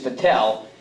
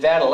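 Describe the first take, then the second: First: The name is said with a French pronunciation. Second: The name is said with an English pronunciation. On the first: This is how the speaker thinks it should be said. "I'm a Frenchman. I think it's Vettel" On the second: This is how someone else says it. "he pr pronounces it Vettel"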